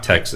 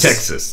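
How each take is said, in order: First: It is said in a plain, non-Southern accent. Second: It is said with a drawn-out Southern accent. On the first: This is how an outsider says it. The speaker calls it wrong. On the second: This is how someone living in Texas says it. The speaker calls it right. "now that you're down in Texas, you don't say Texas, you say Tex-"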